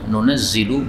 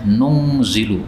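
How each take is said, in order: First: A vowel follows the second n; z is doubled. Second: No vowel follows the second n; single z.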